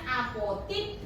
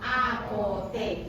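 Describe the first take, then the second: First: The last vowel is an I sound. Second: The last vowel is an E sound. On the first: "Yang berbeda adalah I dan E" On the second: "Yang berbeda adalah I dan E"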